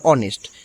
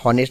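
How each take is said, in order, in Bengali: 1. শব্দটি স্বরধ্বনি দিয়ে শুরু হয়। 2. শব্দটি h ধ্বনি দিয়ে শুরু হয়। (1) "সো এর উচ্চারণ হবে অনেস্ট" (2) "না এখানে হনেস্ট বলা যাবে না"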